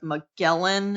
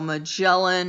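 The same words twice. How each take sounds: First: The middle consonant is a hard G. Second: The middle consonant is a J sound. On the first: The speaker calls it wrong. "A lot of people end up saying that" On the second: The speaker calls it right. "it is said with a J sound"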